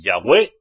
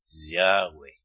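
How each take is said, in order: First: The stress is on the second syllable. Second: The stress is on the first syllable. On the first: The speaker calls it wrong. "si decís Yahweh, ya no es el nombre" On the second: The speaker calls it right. "Sin acento en la E"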